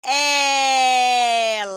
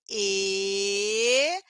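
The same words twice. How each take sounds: First: Ela with a wide, open é, loud and stretched; teacher demo of the open e. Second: Ele with a closed ê sound; teacher demo of the closed e. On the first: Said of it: "também tenho o E aberto". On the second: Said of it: "Eu tenho o E fechado". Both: Shown as a demonstration.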